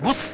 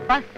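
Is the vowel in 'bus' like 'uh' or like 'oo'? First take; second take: oo; uh. First: The vowel is a rounded 'oo' sound. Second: The vowel is an open 'uh' sound. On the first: The speaker calls it right. "ബുസ് എന്നാണ് ഉച്ചാരണം പറഞ്ഞിരിക്കുന്നത്" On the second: The speaker calls it wrong. "ബസ് എന്ന ഉച്ചാരണം തെറ്റാണ്"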